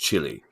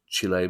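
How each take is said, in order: First: The word is said in a South London accent. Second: The word is said in a Chilean way. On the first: This is how people in South London say it. "in our accent, Kieran, it's Chile" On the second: This is how the country's own people say it. "I'm sure it's Chile"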